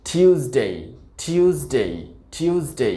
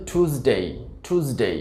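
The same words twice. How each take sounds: First: British টিউসডে as "TYOOS-day"; "tyoo" opening in টিউসডে; British pronunciation. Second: American টিউসডে as "TOOS-day"; plain "too" opening টিউসডে; American pronunciation. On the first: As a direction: say টিউসডে with a y glide after t. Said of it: "সঠিক উচ্চারণটা". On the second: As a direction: say টিউসডে with no y glide after t. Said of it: "American উচ্চারণটা হবে". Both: Shown as a demonstration.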